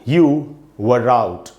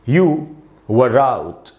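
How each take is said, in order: The two takes are said the same way.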